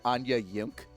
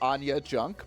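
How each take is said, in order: First: The last word starts with a Y sound. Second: The last word starts with a J sound. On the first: "pronounce it Anya Yunk" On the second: "spell Anya Junk"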